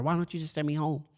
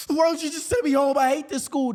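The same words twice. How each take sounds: First: Said in the usual way. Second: High-pitched mock tantrum yell; acted yell. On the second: Eight-year-old self to vice principal, high acted yelling. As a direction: yell it high like a fed-up kid. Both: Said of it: "And I yell at her".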